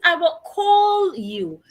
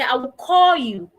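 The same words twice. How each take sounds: First: The L at the end of call is pronounced. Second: The L at the end of call is dropped. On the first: The speaker calls it right. "It is not call. It is" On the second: The speaker calls it wrong. "A lot of people say"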